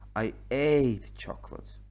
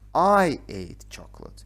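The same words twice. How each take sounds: First: The stress is on the word ate. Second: The stress is on the word I.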